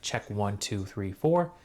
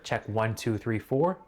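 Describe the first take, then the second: First: Recorded at higher gain, sounding louder and harsher. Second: Recorded at lower gain, sounding clean and smooth. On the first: "the gain is like higher for the D J, the D J I Mic two" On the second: "It's like lower to where it, it just sounds very nice, clean, no harshness"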